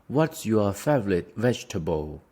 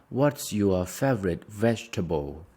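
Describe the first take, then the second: Both takes have the same delivery.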